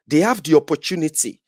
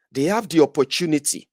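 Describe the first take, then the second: No difference in how they are said.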